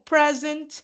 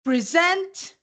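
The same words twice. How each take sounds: First: "present" as a noun, stressed on PRE; stress on first syllable. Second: "Present" as a verb, stressed on SENT; light "Pre", then a higher, weighted SENT in "Present"; stress on last syllable. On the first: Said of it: "o stress na primeira sílaba". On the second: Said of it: "O stress na última sílaba". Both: Shown as a demonstration.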